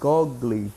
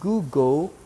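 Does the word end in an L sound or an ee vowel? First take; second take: ee vowel; L sound. First: The word ends with an extra ee vowel. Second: The word ends in an L sound, like table. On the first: The speaker calls it wrong. "mas não é" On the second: The speaker calls it right. "É Google e a pronúncia ... é semelhante a table"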